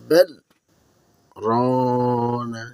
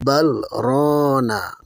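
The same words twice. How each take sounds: First: A one-second silent stop comes between the words. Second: The two words run together without any stop. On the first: The speaker calls it right. "আমি বললাম বাল, এরপরে এক সেকেন্ড চুপ থাকলাম, দম না নিয়ে তারপরে বললাম রনা" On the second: The speaker calls it wrong. "অনেকে এটাকে ভুল করে মিলিয়ে পড়ে ফেলে"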